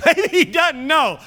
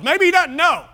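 First: Slow, high, laughing repeat. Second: Mock wonder. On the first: Pretend. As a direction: chuckle through Maybe he doesn't know. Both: Joking about oblivious driver.

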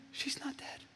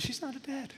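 First: "She's not dead" fully whispered, high and breathy. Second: "She's not dead" said high and hushed, softer; hushed reassurance. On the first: Jesus repeats it as a whisper. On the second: Jesus speaks softly to the parents. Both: Acted.

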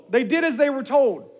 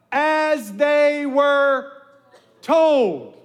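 First: Said in the usual way. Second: Slow drawn-out "As they were told", leaning on "they"; slow emphatic answer. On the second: Shown as a demonstration. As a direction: model the answer slowly for the room. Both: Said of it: "The Israelites did what?".

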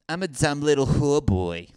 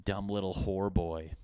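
First: Put-on voice. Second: Said in the usual way. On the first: Shown as a demonstration. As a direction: camp it up like a cartoon hooker. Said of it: "any hookers that sound like that?".

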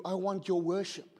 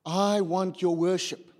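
First: Said in the usual way. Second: Stretched, stressed "I" in "I want your worship"; slow down and lean on "I"; emphatic repeat. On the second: Acted. Repeats God's words with emphasis.

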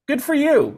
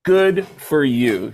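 First: High, unimpressed brush-off; dismissive girl. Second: Very slow flat brush-off; deadpan drawn out. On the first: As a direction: pat him on the head with it. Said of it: "the girl looked at me and went". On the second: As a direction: let each word drop, unimpressed. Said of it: "she said". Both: Retold or imitated.

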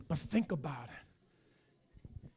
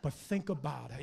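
First: "think" drawn out very slowly; slow right down on "think"; slow, weighted repeat. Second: Said in the usual way. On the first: Shown as a demonstration. Pastor repeats it slowly so the church reflects.

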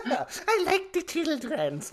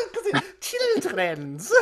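First: High, slow, giggling words; mocking his slip while laughing. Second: High, slow, laughing through it; can't stop laughing at the word; cracking up over his own slip. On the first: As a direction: laugh through the mocking repeat. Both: Real, not acted. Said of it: "children's in it".

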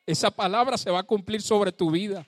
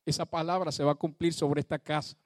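First: Louder declaration. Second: Said in the usual way. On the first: Shown as a demonstration. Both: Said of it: "¿sabes una cosa?".

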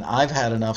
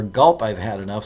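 First: "I've had enough" with "I've" landing on the downbeat; "I've" stressed on the one, no pickup; downbeat start. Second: "Gulp" as an unstressed pickup so "I've" lands after the one; "Gulp" on the upbeat before "I've"; pickup start. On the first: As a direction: hit "I've" right on beat one as the strong start. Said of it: "starting on the one". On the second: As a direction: lead in with "Gulp" on the and, then "I've had enough". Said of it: "starting on the "and" after the one". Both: Shown as a demonstration.

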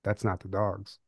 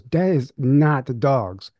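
First: Much softer, muttered to himself; quiet inner thought. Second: Slow, deliberate, half-acted insistence; mild mock fear. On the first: Retold or imitated. Him realizing at the stair bottom, softly to himself. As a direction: say it under the breath as he realizes. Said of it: "thinking to myself". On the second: Girlfriend insisting to him about the noise, slowly and mildly. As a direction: spell it out slowly like she's sure. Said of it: "She goes".

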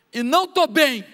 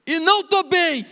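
First: A raised, aching confession; pleading prayer. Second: Much higher and louder, breaking out; anguished cry. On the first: Praying alone in his room, a rising plea. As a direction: let the hurt rise as you admit it. Private prayer, pouring out pain. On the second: Alone before God, an anguished outcry. Private prayer, crying out. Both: Pretend.

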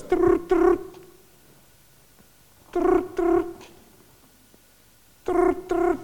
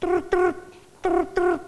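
First: High trilled ring with pauses; trill, pause, trill again; phone ring. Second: High trills with no pause; parrot's rushed ring. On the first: Shown as a demonstration. Showing how a real phone rings, trills with pauses. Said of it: "Because the phone goes". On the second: Retold or imitated. Parrot failing to copy the phone, rushed trills. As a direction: trill quickly without the gap. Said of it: "He goes".

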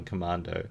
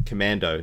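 First: Commando said the British way, mah vowel; Commando, British pronunciation; British accent. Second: Commando said the American way, a as in cat; plain; American accent. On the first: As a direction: Commando with a broad British a as in father. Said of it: "that sounded pretty British". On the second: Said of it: "There we go". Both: Shown as a demonstration.

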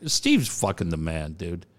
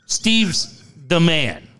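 First: Low, tossed-off line that runs words together; said too fast. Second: Slow, spaced out STEVE'S, then THE MAN; slow careful correction. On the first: Real, not acted. Radio host raving about Steve to co-host, said too fast. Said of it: "I said that so fast". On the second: Shown as a demonstration. Host correcting a garbled line for co-host, slow and deliberate. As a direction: spell it out slowly so nobody mishears. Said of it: "Sorry, I said that so fast".

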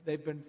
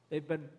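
No difference in how they are said.

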